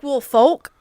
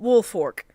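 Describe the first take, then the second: First: The last syllable is said with an L sound. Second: The last syllable is said with an R sound. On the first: The speaker calls it wrong. "It looks like Wolf Folk" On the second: The speaker calls it right. "but it's said"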